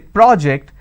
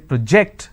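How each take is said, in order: First: The stress is on the first syllable. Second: The stress is on the second syllable. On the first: It is a noun. "when I'm stressing on the first syllable, it becomes a noun" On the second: It is a verb. "When I'm stressing on the second syllable, it's a verb"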